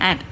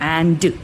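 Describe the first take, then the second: First: The word is said quickly in a reduced form. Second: The word is said fully and clearly. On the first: The word is part of connected speech. "സ്പീഡിൽ ആൻഡ് ഇങ്ങനെ പറഞ്ഞേ പോകത്തുള്ളൂ" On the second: The word is said on its own. "ഒറ്റയ്ക്ക് പറയുവാണെങ്കിൽ നമ്മൾ ആൻഡ് എന്ന് തന്നെയാണ് പറയുന്നത്"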